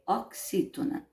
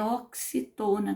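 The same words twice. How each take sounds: First: "oxítona" said ok-SÍ-to-na; correct stress on XÍ. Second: "oxitona" mispronounced ok-si-TÔ-na; children's wrong stress on TO. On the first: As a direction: correct it firmly, beat on the XÍ of "oxítona". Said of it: "É oxítona". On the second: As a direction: shift the beat onto TO in "oxitona". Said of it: "como algumas crianças falam". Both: Shown as a demonstration.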